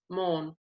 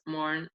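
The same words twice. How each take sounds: First: The R after the vowel is silent. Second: The R after the vowel is pronounced.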